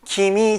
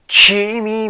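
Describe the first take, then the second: First: The K sound at the start is soft. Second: The K sound at the start is strong. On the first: "君じゃなくて" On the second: "K の子音がね、すごく強い"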